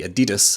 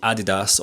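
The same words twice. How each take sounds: First: It is said in a Scottish pronunciation. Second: It is said in a non-Scottish pronunciation.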